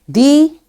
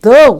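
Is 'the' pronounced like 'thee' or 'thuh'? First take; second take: thee; thuh. First: It is said like 'thee'. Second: It is said like 'thuh'. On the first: It is the form used before vowel sounds. "The with vowel sounds" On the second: It is the form used before consonant sounds. "the with consonant sound"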